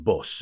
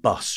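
First: It is said in the local, non-southern accent. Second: It is said in a southern English accent. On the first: This is the way the other children said it. "rather than bus" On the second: This is the way the speaker said it as a child. "And bus"

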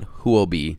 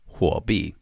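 First: Huobi is said with an anglicized pronunciation. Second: Huobi is said with a Mandarin pronunciation. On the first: The speaker calls it wrong. "I'm going to tell you why it's not Huobi" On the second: The speaker calls it right. "It is Huobi"

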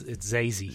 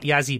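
First: The name begins with a Z sound. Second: The name begins with a Y sound. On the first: The speaker calls it right. "It's Zazie" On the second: The speaker calls it wrong. "it's not Yazzie Beetz"

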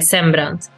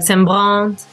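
First: It is said the native Swedish way. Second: It is said the way French people say it.

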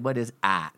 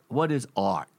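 First: It is said in a Boston accent. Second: It is said in a Philadelphia accent. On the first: "Now in Boston, they say" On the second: "I'm from Philly, and back there we called it art"

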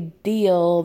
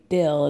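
First: The vowel is a long ee sound. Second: The vowel sounds like a short i. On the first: "they don't say deal" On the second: "they say dill"

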